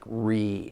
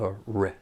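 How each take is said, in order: First: The vowel is a long E sound. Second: The vowel is a short, reduced sound. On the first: The speaker calls it wrong. "I hear that long E sound like re" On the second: The speaker calls it right. "instead of a r"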